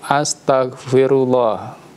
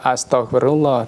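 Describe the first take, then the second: First: The 'tagh' syllable is pronounced clearly and distinctly. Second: The 'tagh' syllable is blurred, not clearly pronounced. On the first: The speaker calls it right. "tapi astagfirullah. Tak" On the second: The speaker calls it wrong. "Jadi tidak astagfirullah"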